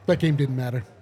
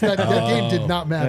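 First: It is said in a casual, offhand way. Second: It is said loudly and forcefully, with conviction.

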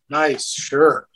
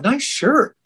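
First: It is said in a sarcastic, mocking tone. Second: It is said in a sincere, friendly tone. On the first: The shirt is not liked. "they read it as nice shirt. You know, like, well, you don't like my shirt?" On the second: The shirt is genuinely liked. "I was actually telling you I liked your shirt"

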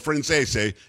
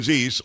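First: The name is said with Italian pronunciation. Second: The name is said with American pronunciation.

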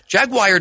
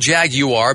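First: It is said in a non-British way. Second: It is said in a stretched British way. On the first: The speaker calls it wrong. "doesn't even make any sense" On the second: The speaker calls it right. "that's a British pronunciation"

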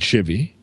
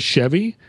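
First: The first vowel sounds like 'ih', as in 'shiver'. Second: The first vowel sounds like 'eh', as in 'chef'. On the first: This is a regional Western Ohio pronunciation. "my mom pronounces it shivy" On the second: This is the usual pronunciation. "when she says Chevy"

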